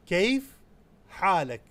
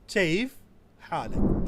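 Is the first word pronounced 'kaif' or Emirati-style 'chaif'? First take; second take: kaif; chaif. First: The first word starts with a k sound. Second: The first word starts with a ch sound.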